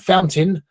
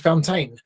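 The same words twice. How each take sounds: First: The word is said in a relaxed, reduced way. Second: Every letter of the word is clearly pronounced. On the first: This is how English speakers say it. "fountain for us" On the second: This is how a non-native speaker says it. "they pronounce the words as they're written"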